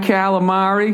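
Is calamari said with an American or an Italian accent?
American. It is said with a flat American accent. The speaker calls it wrong. "The way I say it. It's just fucking terrible"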